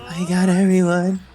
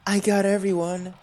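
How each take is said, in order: First: It is said in a shaken, trembling voice. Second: It is said in a steady, plain voice.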